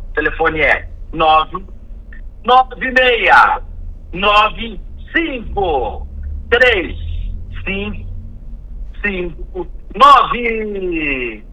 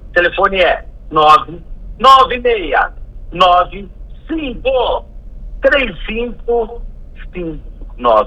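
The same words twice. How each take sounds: First: The number is read out slowly. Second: The number is read at normal speed.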